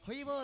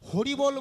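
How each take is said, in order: First: The r sound is dropped, leaving a vowel. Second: The word is said with a clear r sound. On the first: A small child whose teeth are just coming is speaking. "আদো আদো কথা" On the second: A person with full teeth is speaking. "হরি বল বলতে গিয়ে"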